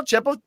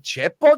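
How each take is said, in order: First: "Chepo?" jumps much higher with a sharp rise; "Chepo?" pitched high in sudden recognition; disbelieving realization. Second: "Chepo?" asked with a light rising tone; a first uncertain "Chepo?", lightly rising; puzzled question. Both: Retold or imitated. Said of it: "I'm like".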